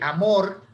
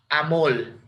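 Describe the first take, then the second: First: The word ends with an R sound. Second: The word ends with an L sound.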